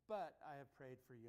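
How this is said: The stress is on "but".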